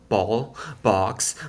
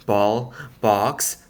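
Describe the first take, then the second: No difference in how they are said.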